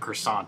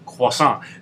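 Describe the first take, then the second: First: Croissant is pronounced the anglicized English way. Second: Croissant is pronounced the French way. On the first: The speaker calls it wrong. "I'm going to say it wrong just to fuck with you" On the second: The speaker calls it right. "So he knows how to say things properly"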